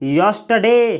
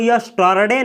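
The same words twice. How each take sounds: First: The r sound is silent in the word. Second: The r sound is clearly pronounced in the word. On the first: The speaker calls it right. "आर का उच्चारण नहीं किया जाता है, इसको बोला जाता है" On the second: The speaker calls it wrong. "इसको यस्टरडे नहीं पढ़ा जाता है"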